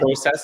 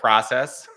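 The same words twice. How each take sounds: First: The word is said the Canadian way. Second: The word is said the American way. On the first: "I say process" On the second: "instead of process"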